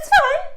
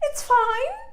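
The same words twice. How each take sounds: First: The voice is pitched lower. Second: The voice is pitched higher.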